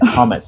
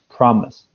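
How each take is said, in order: First: The R sound is left out of the word. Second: The R sound is clearly pronounced in the word. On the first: The speaker calls it wrong. "you were kind of saying promise, promise. You weren't pronouncing the R" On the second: The speaker calls it right. "the correct pronunciation is promise"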